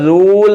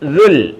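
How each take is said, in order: First: The vowel is drawn out long. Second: The vowel is kept short. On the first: The speaker calls it wrong. "എഴുതിയേക്കുന്നത് ദൂൽ എന്നാണ്" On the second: The speaker calls it right. "നാം പറയേണ്ടത് ദുൽ ദുൽ"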